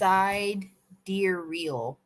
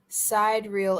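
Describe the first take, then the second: First: It sounds like side deer reel, with a middle syllable. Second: It sounds like two words, side reel. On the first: The speaker calls it right. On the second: The speaker calls it wrong.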